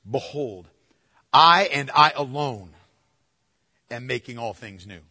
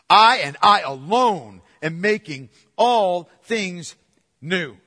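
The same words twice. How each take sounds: First: Said in the usual way. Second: Slow, louder, leaning on "I and I alone"; emphatic. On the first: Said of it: "You could translate this from the Greek". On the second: Shown as a demonstration. Preacher showing the congregation the Greek emphasis, slow and louder. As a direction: drive home "I and I alone" word by word. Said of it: "because it's emphatic".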